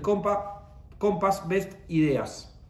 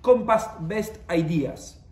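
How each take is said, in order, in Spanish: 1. El nombre se dice con pronunciación en español. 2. El nombre se dice con pronunciación en inglés.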